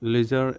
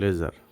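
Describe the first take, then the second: First: It is said with a British accent. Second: It is said with an American accent. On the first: "লেজার হচ্ছে British" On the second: "লেজার হচ্ছে American"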